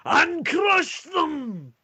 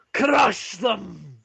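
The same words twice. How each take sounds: First: Very high, loud, drawn-out bellow; war cry. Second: Louder, higher, firm declaration; firm loud echo. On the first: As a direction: scream it like a battle cry. Ulfric bursts in with a war cry. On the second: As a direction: nod to Ulfric and declare it. Turek echoes Ulfric's cry. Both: Acted.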